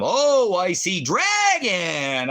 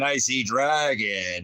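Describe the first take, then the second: First: High, slow taunting sing-song on "I see dragon"; mocking sing-song. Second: Said in the usual way. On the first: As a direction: tease it high and slow like calling a child.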